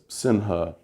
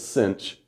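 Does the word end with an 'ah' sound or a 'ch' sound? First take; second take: ah sound; ch sound. First: The word ends with an 'ah' sound. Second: The word ends with a 'ch' sound. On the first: The speaker calls it wrong. "sinha just sounds stupid" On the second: The speaker calls it right. "Everyone says cinch"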